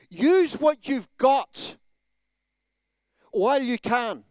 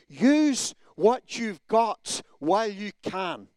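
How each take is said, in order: First: It is said with strong, forceful emphasis. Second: It is said with mild, ordinary emphasis. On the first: The speaker calls it right. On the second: The speaker calls it wrong.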